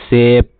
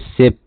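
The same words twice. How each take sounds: First: The vowel is drawn out and long. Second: The vowel is short and clipped. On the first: The speaker calls it right. "खींच के थोड़ा सा long sound बोलेंगे" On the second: The speaker calls it wrong. "Short sound ऐसे बोलेंगे"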